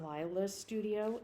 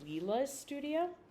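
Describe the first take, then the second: First: The name's first vowel sounds like 'eye'. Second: The name's first vowel sounds like 'ee'. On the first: The speaker calls it wrong. "I've been saying this wrong the whole time" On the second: The speaker calls it right. "it's Leela's studio"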